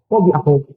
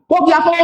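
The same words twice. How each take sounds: First: Echo repeating. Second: High-pitched call-out; mock shout. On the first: Acted. Echo answering the one who shouted, lower repeat. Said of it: "Anong uulit ng echo?". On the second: Someone calling out to hear the echo, high mock shout. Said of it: "pag sumigaw ka".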